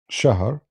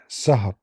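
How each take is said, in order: First: The word begins with a sh sound. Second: The word begins with an s sound. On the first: This is the original form of the word. "Shahr in Hebrew became Sahar" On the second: This is the Hebrew form of the word. "Shahr in Hebrew became Sahar"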